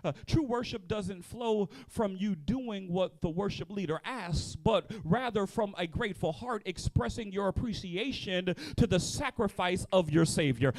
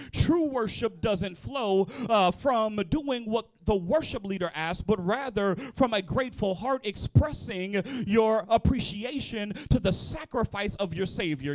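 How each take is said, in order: First: Said in the usual way. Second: Slower, each phrase weighed, True stressed; slow emphatic repeat. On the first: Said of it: "I'll say it again". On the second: Shown as a demonstration. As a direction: say it again slowly, leaning on True. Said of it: "I'll say it again 'cause I wrote it".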